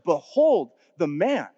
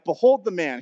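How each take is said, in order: First: It is said in a reverent tone. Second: It is said in a mocking tone.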